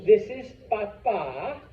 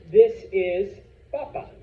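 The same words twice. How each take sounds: First: Slow demo with "papa" said pa-PA; stress on final A. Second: Louder demo with "papa" said PA-pa; stress on first syllable. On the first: Teacher contrasts dad with potato, "papa" stressed pa-PA. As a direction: lengthen the second syllable of "papa". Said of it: "extra stress on the A". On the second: Teacher contrasts potato with dad, "papa" stressed PA-pa. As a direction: punch the first syllable of "papa", short ending. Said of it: "That means potato". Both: Shown as a demonstration.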